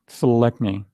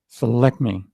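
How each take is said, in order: The two takes are said the same way.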